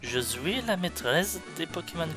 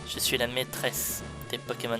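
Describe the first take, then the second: First: It is said in a Russian-sounding accent. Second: It is said in a plain French accent. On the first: "Elle met des Z à la place des L en mode" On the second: "je le prononce pas vraiment comme elle"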